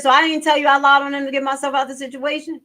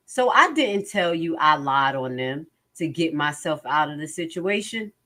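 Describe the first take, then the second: First: Higher, louder, fast disbelieving echo; mock-incredulous rereading of his words; incredulous repeat. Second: Said in the usual way. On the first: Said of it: "He said". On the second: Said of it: "Mister Copeland".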